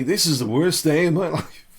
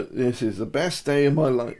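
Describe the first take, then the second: First: Higher, louder cheer breaking into a laugh; upright, upbeat. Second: Mildly downcast delivery, closer to everyday pitch; slouched, downcast. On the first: Coach showing viewers an upright posture that contradicts the words, upbeat. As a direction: proclaim it head up, laughing at the contradiction. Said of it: "Head up". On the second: Coach showing viewers a slumped posture that contradicts the words, mildly downcast. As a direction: say it slouched with head down, half-hearted. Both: Shown as a demonstration.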